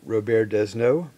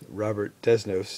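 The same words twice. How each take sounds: First: The name is said with a French pronunciation. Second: The name is said with an American English pronunciation.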